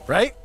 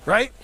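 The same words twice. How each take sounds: The two takes are said the same way.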